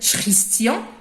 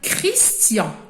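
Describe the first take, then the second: First: The word begins with an sh sound. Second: The word begins with a k sound. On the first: The speaker calls it wrong. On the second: The speaker calls it right.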